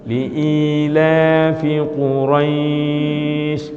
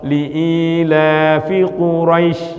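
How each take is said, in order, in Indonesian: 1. Suku kata terakhir dipanjangkan dan dibuat halus. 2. Suku kata terakhir dipotong pendek dan mendadak. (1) "kalau diberhentikan maka dia menjadi panjang, yang itu membuat bacaannya jadi lemes" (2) "tidak diberhentikan dan tidak tidak dipanjangin, jadi kayak kepentok"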